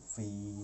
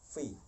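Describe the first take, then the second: First: The vowel is drawn out long. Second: The vowel is held short. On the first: "tapi fi panjang" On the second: "fa kasroh fi"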